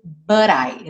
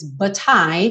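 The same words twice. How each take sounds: First: The T is a quick flap, American style. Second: The T is clearly pronounced, British style.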